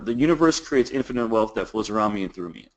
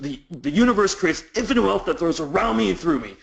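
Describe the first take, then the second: First: It is read very quickly. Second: It is read more slowly and deliberately.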